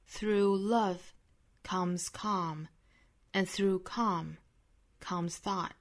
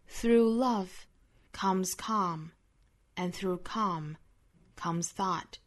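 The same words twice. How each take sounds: The two takes are said the same way.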